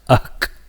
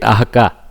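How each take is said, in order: First: The h sound is cut off abruptly. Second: A short vowel follows the h sound. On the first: The speaker calls it right. "Just make it ahk ahk like that" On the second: The speaker calls it wrong. "Don't make it ahka"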